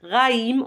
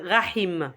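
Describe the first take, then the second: First: "Raïm" with silent h, ra-im; "Raïm" as ra-im, no breath between vowels; French pronunciation, no h. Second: "Rahim" with an audible h breath; sounded h. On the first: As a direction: say "Raïm" with the vowels touching, rising. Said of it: "on va pas dire ra-, Rahim". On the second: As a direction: breathe an h between the vowels of "Rahim". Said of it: "on va pas dire". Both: Shown as a demonstration.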